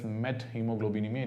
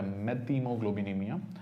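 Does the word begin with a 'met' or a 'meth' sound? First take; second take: met; meth. First: It begins with 'met', then a separate 'h'. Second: It begins with a 'meth' sound, no separate 'h'. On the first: The speaker calls it right. "please pronounce it as methemoglobinemia" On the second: The speaker calls it wrong. "It's not a methemoglobinemia"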